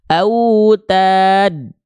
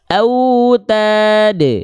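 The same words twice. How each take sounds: First: The final d ends flat, with no bounce. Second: The final d ends with a short echoing bounce. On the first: The speaker calls it wrong. "nggak kita lafalkan autad" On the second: The speaker calls it right. "tapi ada e, ada setengah harokat"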